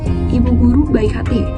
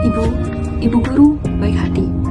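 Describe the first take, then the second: First: It is read in a plain, ordinary way. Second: It is read with expressive poetic intonation. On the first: "hanya membaca biasa" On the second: "kita kan membaca membaca puisi, bukan membaca biasa"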